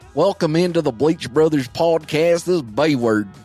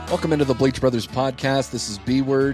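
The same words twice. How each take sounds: First: It is said in a put-on country accent. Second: It is said in his normal accent.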